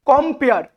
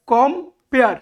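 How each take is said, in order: First: Said in the usual way. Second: "কম্পেয়ার" split as কম, পেয়ার; "কম্পেয়ার" with a gap after কম; syllable by syllable. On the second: Shown as a demonstration. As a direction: break "কম্পেয়ার" into two separate beats. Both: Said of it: "দুটো syllable পেয়ে গেলাম".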